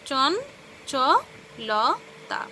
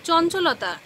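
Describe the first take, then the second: First: "চন, চ, ল, তা" with a gap after each syllable; "চন, চ, ল, তা" as four separate syllables. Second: Said in the usual way. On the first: Shown as a demonstration. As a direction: split it into four beats: "চন", "চ", "ল", "তা". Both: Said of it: "শব্দকে ভেঙে ভেঙে উচ্চারণ".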